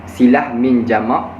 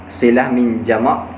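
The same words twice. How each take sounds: Both takes have the same delivery.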